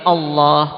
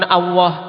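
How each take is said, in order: First: The heavy l is said without rounded lips. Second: The heavy l is said with rounded lips. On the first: The speaker calls it right. "lam yang ditebalkan" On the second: The speaker calls it wrong. "bukan Allah pakai wawu, bukan. Ini keliru"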